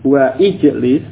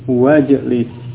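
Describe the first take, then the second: First: The i-vowel of ijlis is pronounced separately. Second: The i-vowel of ijlis is dropped and linked. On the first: The speaker calls it wrong. "bukan wa ijlis" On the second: The speaker calls it right. "tapi wajlis"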